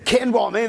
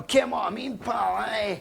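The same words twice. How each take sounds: First: Put-on higher Scottish accent, Ken rising at the end; Scottish accent, Ken lifted. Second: Put-on much higher, shouted Scottish accent, Ken rising; hammed-up shouting Scot; loud Scottish accent. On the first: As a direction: ask "Ken what I mean?" in a jokey Scottish accent. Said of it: "Give me the Scottish accent". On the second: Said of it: "They always say Ken as well".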